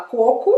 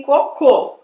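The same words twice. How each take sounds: First: "coco" as CÔ-co; accent the opening CÔ of "coco"; stress on first syllable. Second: "cocô" as co-CÔ; accent the final CÔ of "cocô"; stress on last syllable. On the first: Teacher explaining to American lady, first-syllable stress. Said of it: "acento na primeira sílaba". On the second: Teacher explaining to American lady, last-syllable stress. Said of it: "Se eu colocar na segunda". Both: Shown as a demonstration.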